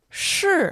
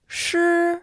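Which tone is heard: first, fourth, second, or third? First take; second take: fourth; first. First: The pitch falls sharply from high. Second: The pitch stays high and level.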